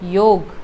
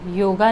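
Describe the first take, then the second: First: The word ends on the 'g' sound. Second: The word ends with an extra 'a' vowel. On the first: The speaker calls it right. "योग ही सही उच्चारण है" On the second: The speaker calls it wrong. "योगा नहीं"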